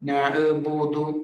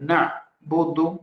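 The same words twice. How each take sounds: First: The word is said in a loose, slack way. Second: The word is said in a crisp, brisk way. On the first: The speaker calls it wrong. "അങ്ങനെയില്ല" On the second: The speaker calls it right. "വളരെ ചടുലമായിട്ട് പറയണം"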